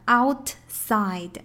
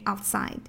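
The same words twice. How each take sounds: First: The t sound is clearly released. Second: The t sound is held and not released. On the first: The speaker calls it wrong. "不是我们所见到的outside" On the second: The speaker calls it right. "outside 基本上t 是没有发音的"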